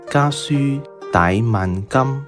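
The line is read in Cantonese pronunciation. The rhyme words of the poem rhyme perfectly. "下面我就试着用粤语来读一读这首诗"

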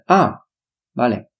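It is said with a pause between the words. "不是啊vale，可以是可以的"

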